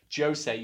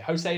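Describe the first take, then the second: First: The name is said with a Portuguese pronunciation. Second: The name is said with a Spanish pronunciation. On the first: The speaker calls it right. "you pronounce the J in Portuguese" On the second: The speaker calls it wrong. "José is Spanish"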